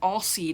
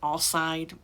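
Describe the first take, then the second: First: The second syllable sounds like 'seed'. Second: The second syllable sounds like 'side'. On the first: This is how the show said the name. "they they called him Allseed" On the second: This may be how the name is meant to be said. "I don't know if it's supposed to be Allside"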